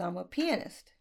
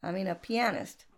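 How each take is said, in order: First: "pianist" said PEE-uh-nist; first-syllable stress. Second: "pianist" said pee-AN-ist; corrected pronunciation. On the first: Singer answering the bar owner, "pianist" as PEE-uh-nist. Says it, then corrects the word. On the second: Host correcting herself after the joke, "pianist" as pee-AN-ist. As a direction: stress the middle of "pianist" with an open "an". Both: Retold or imitated.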